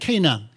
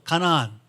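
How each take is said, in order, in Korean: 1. 두 음절로 발음합니다: kay-nan. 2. 세 음절로 발음합니다: ga-na-an.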